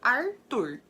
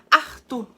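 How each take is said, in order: First: It is said in a rural interior Brazilian accent. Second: It is said in a Northeastern Brazilian accent. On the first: "no interior fala Arthur" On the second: "o pessoal do Nordeste fala Arthur"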